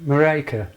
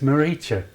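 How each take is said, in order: First: The name is said in its plain, formal form. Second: The name is said in a softer, affectionate form. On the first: This is simply the person's name. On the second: The speaker feels close to the person.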